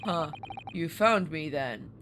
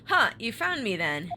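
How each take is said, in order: First: Low, slow delivery in the sailor's voice; low, drawn-out character voice; wrong character's voice. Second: Hero's voice, close to the reader's own; corrected take in the hero's normal register; natural pitch, lightly acted surprise; Ryu. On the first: Acted. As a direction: read the hero's line as the sailor. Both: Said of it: "Oh, wait, no, that's Ryu".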